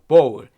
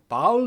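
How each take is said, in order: First: It is said as one syllable, bowl. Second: It is said as two syllables, ba-ul. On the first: The speaker calls it right. "발음이 bowl입니다" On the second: The speaker calls it wrong. "바울이 아니에요"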